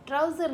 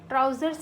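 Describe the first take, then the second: First: ट्राउजर said without the final s, as the form to avoid; wrong singular form. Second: ट्राउजर्स with a clear final s, slightly louder; right plural form. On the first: Teacher shows students the wrong singular, said plainly. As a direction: drop the s and say ट्राउजर as the wrong version. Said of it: "ट्राउजर नहीं बोलते". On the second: Teacher gives students the correct plural, firm. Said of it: "ट्राउजर्स ही use होगा". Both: Shown as a demonstration.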